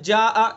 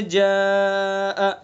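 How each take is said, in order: First: जा आ said quickly with no stretch; short wrong recitation. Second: जा आ with the आ held two alifs; stretched recitation. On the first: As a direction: clip जा आ short, as the mistake. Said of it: "ये गलत हो जाएगा". (जा आ को बिना खींचे जल्दी पढ़ना) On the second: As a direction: draw out the आ in जा आ. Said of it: "कम से कम दो अलिफ खींचेंगे". (जा आ में दो अलिफ खींचना) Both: Shown as a demonstration.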